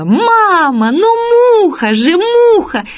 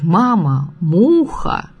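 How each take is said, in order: First: Put-on high-pitched cry of an insistent little girl; imitated child's cry. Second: Said in the usual way. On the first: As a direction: call out to mum, stretching the words up high. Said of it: "на весь автобус закричала".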